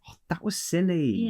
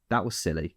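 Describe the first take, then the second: First: It sounds gentle and not annoyed. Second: It sounds mildly annoyed, like a light scolding. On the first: The mistake is no big deal. "the tone actually says a lot as well" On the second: The speaker is irritated and is scolding. "I am lightly telling you off because I am peeved"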